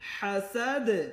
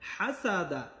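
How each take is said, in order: First: The word ends on a 'd' sound. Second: The word ends with an 'a' vowel. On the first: The reader stops at this word. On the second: The reader continues without stopping.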